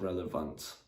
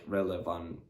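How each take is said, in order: First: The final t sound is clearly pronounced. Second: The final t sound is dropped. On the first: The speaker calls it right. "instead of" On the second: The speaker calls it wrong. "skip the T"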